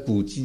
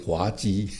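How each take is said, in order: First: The first syllable is pronounced gu. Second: The first syllable is pronounced hua. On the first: The speaker calls it right. "那古鸡有说啊" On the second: The speaker calls it wrong. "以前我不会念，都念成滑鸡"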